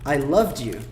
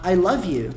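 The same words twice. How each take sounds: First: "loved you" with a D before "you"; audible D in one-syllable "loved"; past form. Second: "love you" with V straight into Y; "love" linked cleanly to "you"; present form. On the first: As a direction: link "loved" as "lov-dyou". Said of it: "pra falar". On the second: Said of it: "É diferente eu falar". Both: Shown as a demonstration.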